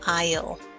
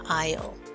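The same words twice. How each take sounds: First: It is said as one contracted word. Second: It is said as one contracted word.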